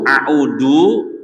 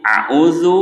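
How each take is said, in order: First: A'udu said with a plain d, meaning return; wrong a'udu. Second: A'uzu said high, with a clear z; correct a'uzu. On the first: Teacher showing how the meaning changes with the wrong sound, deliberately wrong. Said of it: "Tapi kalau dibaca du". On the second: Teacher explaining the meaning of the right sound, careful demo. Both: Shown as a demonstration.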